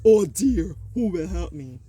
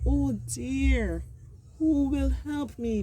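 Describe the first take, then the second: First: It sounds angry. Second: It sounds afraid and worried.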